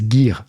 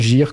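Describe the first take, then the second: First: The G is hard, as in English. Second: The G is soft, like a French j. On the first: This is the English word's pronunciation. The speaker calls it right. "le mot anglais, on est bien d'accord que c'est Gear" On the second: This is how it was said in childhood. The speaker calls it wrong. "moi aussi je disais Game Gear quand j'étais petit"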